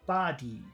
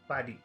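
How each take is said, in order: First: Both sounds in the word are long. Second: Both sounds in the word are short. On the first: "If we made them both long" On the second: "If we made both of the sounds in number one short"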